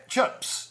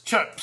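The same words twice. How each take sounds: First: "chips" said as "chups", with a short uh vowel; higher, breathy go at the Kiwi "chips". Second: Said in the usual way. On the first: Shown as a demonstration. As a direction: try "chips" the New Zealand way, vowel like "chups". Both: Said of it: "try that in a sentence".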